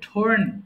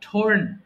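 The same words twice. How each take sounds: Both takes have the same delivery.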